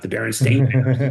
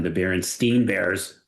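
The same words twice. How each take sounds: First: "Berenstain" ending like "stain"; "Berenstain" rhymed with "rain" at the end; -stain pronunciation. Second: "Berenstain" ending like "steen"; "Berenstain" rhymed with "bean" at the end; -steen pronunciation. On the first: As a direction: say "Berenstain" with a long ay in the last syllable. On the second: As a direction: say "Berenstain" with a long ee in the last syllable. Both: Shown as a demonstration. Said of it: "not the Berenstain Bears".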